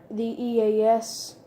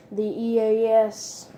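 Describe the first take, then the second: No difference in how they are said.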